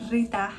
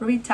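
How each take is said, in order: First: The name is said with a Spanish accent. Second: The name is said without a Spanish accent.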